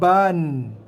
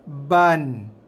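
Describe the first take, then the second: The two takes are said the same way.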